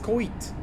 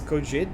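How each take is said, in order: First: The name is read with Czech-style sounds. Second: The name is read with English-style sounds. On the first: "But in Czech, I would read it as" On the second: "English and Portuguese, I definitely read your name as"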